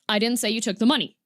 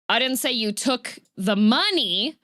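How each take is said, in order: First: It is said flat, with no word stressed. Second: The stress falls on the word money. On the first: "if you just say it completely flat" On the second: "I said that you took something else"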